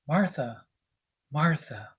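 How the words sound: It sounds calm and loving.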